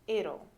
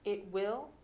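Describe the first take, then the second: First: The words are merged into one short word. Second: Both words are said fully and separately.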